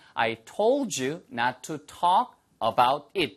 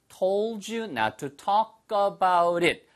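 First: It is said at normal speed. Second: It is said fast, with words linked.

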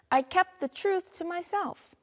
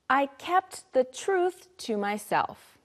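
First: It is said a little faster. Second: It is said at a normal pace.

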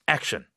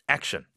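Both takes have the same delivery.

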